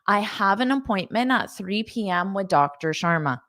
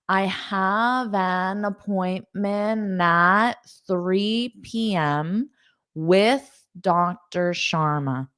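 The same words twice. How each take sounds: First: The sentence is spoken at a fast pace. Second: The sentence is spoken at a normal pace.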